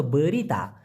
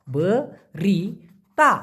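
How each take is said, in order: First: Said in the usual way. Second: বরিতা said very slowly, each syllable be-ri-ta drawn out, rising at the end; careful pronunciation. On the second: Shown as a demonstration. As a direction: stretch বরিতা out slowly, ending with a rise. (বরিতা খুব ধীরে, টেনে টেনে উচ্চারণ) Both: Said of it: "উচ্চারণটা হবে বরিতা".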